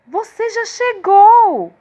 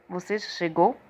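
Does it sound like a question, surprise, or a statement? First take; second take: surprise; statement. First: It is said with surprise. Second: It is said as a plain statement.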